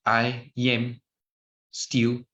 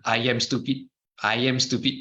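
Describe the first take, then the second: First: Slow demo. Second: Quick repeated run of "I am stupid"; a demo of saying "I am stupid" faster, back to back. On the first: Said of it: "Say these four words four times". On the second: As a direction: rattle off "I am stupid" twice in a row. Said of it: "Say it faster". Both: Shown as a demonstration.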